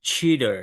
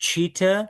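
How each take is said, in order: First: "cheater" with final r sounded, falling; "cheater" with a tapped t and ending r; American pronunciation. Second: "Cheater" with no final r, rising high; "Cheater" with a clear t and final uh; British non-rhotic "Cheater", lifted at the end; British pronunciation. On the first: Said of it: "American people pronounce it as". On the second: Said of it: "British পিপলরা লাস্টে যখন র". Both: Shown as a demonstration.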